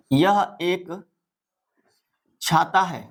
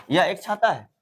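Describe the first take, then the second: First: Broken into two pieces with a long pause; slow dictation. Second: Said in the usual way. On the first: Shown as a demonstration. Teacher writing out an example for pupils, halting dictation.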